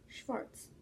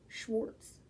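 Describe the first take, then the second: First: It is said with a German pronunciation. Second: It is said with an American pronunciation. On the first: "I really like the German word Schwarz" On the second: "or as Americans would say"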